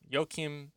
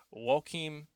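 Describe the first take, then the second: First: "Joachim" retried slowly as YO-kim; second name attempt. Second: "Joachim" tried slowly as WO-kim; botched name attempt. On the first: Correcting himself on the creator's name, "Joachim" as YO-kim. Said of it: "I'm sorry that I'm destroying". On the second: Botching the creator's name, "Joachim" as a slow WO-kim. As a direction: say "Joachim" slowly, opening with a W glide. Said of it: "always botching of names". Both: Real, not acted.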